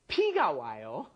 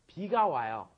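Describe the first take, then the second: First: The first word begins with a P sound. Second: The first word begins with a B sound. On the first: Blood comes. The speaker calls it wrong. "which means blood comes. That's wrong" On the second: Rain comes. The speaker calls it right. "You have to say"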